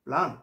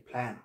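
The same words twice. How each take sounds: First: প্ল্যান with an open "aa", like "plaan"; wrong pronunciation. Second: প্ল্যান with a flat "a" as in "cat"; softer, lower প্ল্যান, vowel "ae"; right pronunciation. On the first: Teacher quizzing learners with the common mistake, "plaan". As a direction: say প্ল্যান as "plahn". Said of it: "এই যে প্ল্যান বলি". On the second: Teacher offering the correct choice, English "plaen". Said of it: "প্ল্যান বলতে হবে". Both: Shown as a demonstration.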